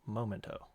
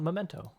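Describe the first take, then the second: First: "Momento" with a long O in the first syllable; corrected pronunciation. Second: "memento" as the rejected word, with an E in the first syllable; "memento", set up as the wrong word; contrasted pronunciation. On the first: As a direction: say "Momento" as moh-MEN-toh. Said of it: "Not memento". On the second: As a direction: say "memento" as meh-MEN-toh. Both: Shown as a demonstration.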